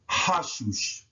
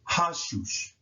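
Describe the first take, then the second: No difference in how they are said.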